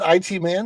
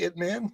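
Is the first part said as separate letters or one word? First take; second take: letters; one word. First: The first part is spelled out as two letters. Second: The first part is said as one short word. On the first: The speaker calls it wrong. "that calls that I T Man" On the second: The speaker calls it right. "Is it supposed to be It Man?"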